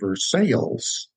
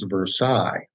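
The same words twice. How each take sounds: First: The name is said the local American way. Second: The name is said the French way. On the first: This is how the Kentucky town's name is said. "a town called" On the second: This is how the French word is usually said. "the French word most often pronounced as"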